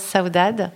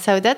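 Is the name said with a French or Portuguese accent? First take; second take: Portuguese; French. First: The name is said with a Portuguese accent. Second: The name is said with a French accent.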